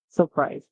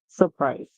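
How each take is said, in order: Both takes have the same delivery.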